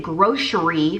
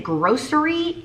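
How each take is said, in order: First: "grocery" with a sh sound, gro-sheree; "grocery" pronounced gro-sheree, sh not s. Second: "grocery" with a crisp s sound, gro-seree; "grocery" pronounced gro-seree, s not sh. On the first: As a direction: say "grocery" with sh in the middle. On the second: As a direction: say "grocery" with an s in the middle. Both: Shown as a demonstration. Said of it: "how do you say that word".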